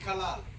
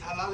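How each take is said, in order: First: The word begins with a hard k sound. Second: The word begins with a throaty h sound. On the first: The speaker calls it wrong. "Неправильно" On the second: The speaker calls it right. "это правильно говорит"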